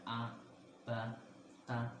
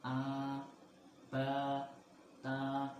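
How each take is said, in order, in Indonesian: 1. Vokalnya dibaca pendek. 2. Vokalnya dibaca panjang. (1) "itu bacaan pendek" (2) "itu adalah bacaan panjang"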